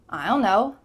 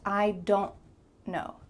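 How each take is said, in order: First: The D sound is dropped entirely. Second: The D is heard and the T is held. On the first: "cut off the D sound" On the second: "your tongue is stopped at the top of your mouth at the end of this word"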